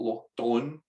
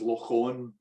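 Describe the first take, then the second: First: The second word begins with a D sound. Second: The second word begins without a D sound. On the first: The speaker calls it wrong. "I used to call it Loch Don until someone, a Gaelic speaker, told me that you don't pronounce it like that" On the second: The speaker calls it right. "I fictionalised it as Loch On, which is spelled D H O N N"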